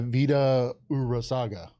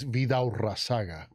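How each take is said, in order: First: The name is said with an English-style accent. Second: The name is said Spanish-style with a rolled r. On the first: This is an easier version for a non-Spanish speaker. "I'm saying j- for him to say it that way" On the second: This is the authentic native pronunciation. "the Spanish way is Vida Urazaga. Got to roll that on"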